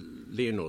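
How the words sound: The name is said with a non-British pronunciation. "the way you did, the Lionel?"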